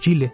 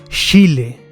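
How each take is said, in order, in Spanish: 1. El sonido inicial ch se pronuncia suave. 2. El sonido inicial ch se pronuncia con mucho énfasis. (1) "que no digo Chile" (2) "digo Chile, como que lo acentúo mucho"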